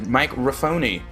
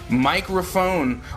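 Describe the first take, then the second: First: It is said Italian-style, ending in "phony". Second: It is said plainly, ending in "phone".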